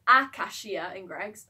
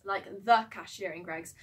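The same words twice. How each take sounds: First: "a" picked out, then slowing; stress on A. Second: "the" picked out as the correction; stress on THE. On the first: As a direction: lean on the word "a", taking your time. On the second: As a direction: lean on "the" to single out one person. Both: Real, not acted. Self-correcting article, a versus the.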